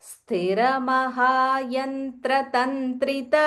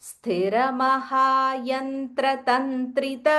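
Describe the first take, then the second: The two takes are said the same way.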